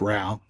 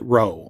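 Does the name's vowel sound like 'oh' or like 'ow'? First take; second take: ow; oh. First: The vowel sounds like 'ow', as in 'cow'. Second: The vowel sounds like 'oh', as in 'go'. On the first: This is how some other people say the name. "Some people say it's Rao" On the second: This is how the speaker says the name. "I pronounce it Rowe"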